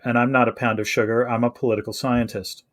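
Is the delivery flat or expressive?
flat. It is said in a flat, imitated film delivery.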